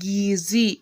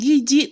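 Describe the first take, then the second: First: The second consonant is a z sound. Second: The second consonant is a j sound. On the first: This is the standard form. The speaker calls it right. "tetapi gizi" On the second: This is the non-standard form. The speaker calls it wrong. "bukan giji"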